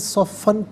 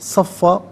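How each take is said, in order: First: The word ends with an n sound. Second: The word ends with a long vowel. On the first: The reader continues without stopping. "इसे नाज़रीन सफ़न पढ़ेंगे" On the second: The reader stops at this word. "वफ़ की सूरत में सफ़ा पढ़ा जाएगा"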